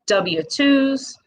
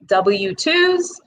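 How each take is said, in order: First: W twos said with a Midwest W, pitched a bit higher; Midwest accent. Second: Said in the usual way. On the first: Real, not acted. Listing payroll papers for business owners, Midwest accent slips out. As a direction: let your Midwest accent slip out on W twos. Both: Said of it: "W, that's my Midwest accent".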